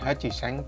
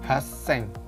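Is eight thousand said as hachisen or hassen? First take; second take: hachisen; hassen. First: The word has a full chi syllable in the middle. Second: The word has a doubled s sound in the middle. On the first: The speaker calls it wrong. "bukan Hajiseng" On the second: The speaker calls it right. "tapi Haseng"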